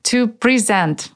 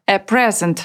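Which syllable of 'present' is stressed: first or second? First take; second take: second; first. First: The stress is on the second syllable. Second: The stress is on the first syllable. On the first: It is the verb meaning to give. "вернемся к глаголу и повторим, как он произносится" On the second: It is the noun meaning a gift. "такое же существительное, но только с ударением на первый слог"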